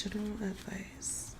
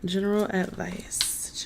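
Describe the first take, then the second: First: "General advice" breathed in a soft whisper with no voice. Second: Said in the usual way. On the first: Shown as a demonstration. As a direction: whisper the words to yourself. Repeats the question, then whispers it.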